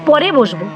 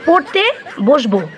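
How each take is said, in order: First: The t sound in the first word is dropped. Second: The t sound in the first word is pronounced. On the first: I will sit down later. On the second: I will sit down to study.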